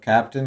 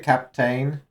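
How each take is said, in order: First: The last syllable is reduced, like 'tin'. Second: The last syllable is said fully, like 'tain'.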